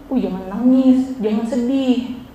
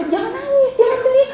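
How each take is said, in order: First: Slow, drawn-out "don't cry"; dismissive consoling. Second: Very high, pushy mimicry; mock ordering. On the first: Acted. Teacher shows students how not to console, dismissive consoling. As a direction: imitate an unhelpful friend, dragging the words slowly. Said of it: "jangan bilang gini". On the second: Teacher mimics ordering a friend not to cry, mock ordering. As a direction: pitch it way up as a hammed-up command. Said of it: "Tapi kalau disuruh".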